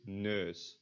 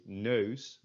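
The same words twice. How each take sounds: First: "neus" with one steady vowel, no glide; Flemish EU vowel. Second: "nose" with the vowel gliding from e to u; Netherlands EU glide. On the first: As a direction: say "neus" the Flanders way, as a pure vowel. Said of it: "in Flanders pronounced without the e". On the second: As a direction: say "nose" with the full Dutch diphthong. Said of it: "So they would not say". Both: Shown as a demonstration.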